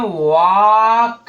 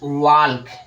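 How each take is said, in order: First: No l sound is heard before the k. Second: An l sound is heard before the k. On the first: The speaker calls it right. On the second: The speaker calls it wrong.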